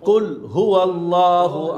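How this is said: A brief stop is held after qul. The speaker calls it right. "তাহলে কুল এক সেকেন্ড হলেও থামবেন।"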